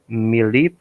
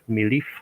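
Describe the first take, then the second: First: The word is said with a P sound. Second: The word is said with an F sound.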